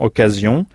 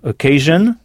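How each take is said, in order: First: The ending sounds like 'zee-on', French style. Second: The ending sounds like 'zhun', English style. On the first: "En français, on prononce la terminaison S-I-O-N, zion" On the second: "Tandis qu'en anglais, S-I-O-N se prononce jeune"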